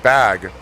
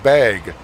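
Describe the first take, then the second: First: It is said with a Californian vowel. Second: It is said with a vowel like in bagel.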